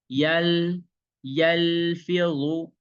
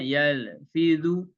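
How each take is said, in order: First: The L sound is held without any bounce. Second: The L sound bounces with a small echo. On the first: The speaker calls it right. "dia tidak boleh mantul karena dia tidak ada qalqalah" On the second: The speaker calls it wrong. "Kalau yang mantul"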